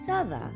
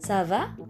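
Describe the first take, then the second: First: The pitch stays level at the end. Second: The pitch rises slightly at the end. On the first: It answers that one is fine. "Kalau untuk menjawab pernyataan jadinya nadanya datar saja" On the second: It asks how someone is. "Nadanya naik sedikit"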